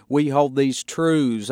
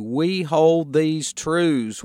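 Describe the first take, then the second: First: "We hold these truths" with "truths" pressed and held; stress on truths. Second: "We hold these truths" slowed right down, "hold" leaned on; slow emphatic quote. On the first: Pastor pointing his congregation to the word truths, stressed. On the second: Pastor savoring the phrase for his listeners, slow and weighty. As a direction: dwell on every word of "We hold these truths". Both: Shown as a demonstration. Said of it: "I would point out that word truths".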